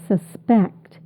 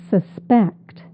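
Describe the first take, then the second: No difference in how they are said.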